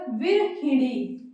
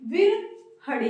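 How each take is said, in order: First: The word ends with a 'hini' sound. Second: The word ends with an 'ri' sound. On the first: The speaker calls it right. "तो यहाँ पर क्या हो जाएगा" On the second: The speaker calls it wrong. "बोलने में थोड़ा अटपटा लग रहा है क्योंकि गलत है"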